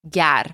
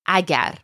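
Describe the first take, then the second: First: The word is shortened to one syllable. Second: The word is said in full, two syllables. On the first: This form fits the rhyme and rhythm of poetry. "it gets shortened to gar" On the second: This is the ordinary form of the word. "gar in the poem is short for agar"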